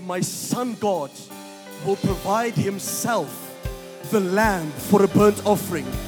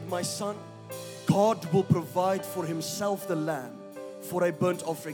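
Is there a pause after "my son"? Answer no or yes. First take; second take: no; yes. First: There is no pause after "my son". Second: There is a pause after "my son".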